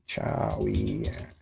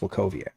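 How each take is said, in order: First: The name is read the English way. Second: The name is pronounced the Polish way. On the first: The speaker calls it wrong. "It's not really how you say it" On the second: The speaker calls it right. "It's a Polish name"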